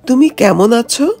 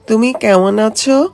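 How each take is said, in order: First: The m sounds are made with closed lips. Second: The m sounds become tongue sounds, lips stay still. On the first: "কথোপকথন যদি এই রকম হয়" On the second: "তাহলে সেটা বলতে হবে এইভাবে"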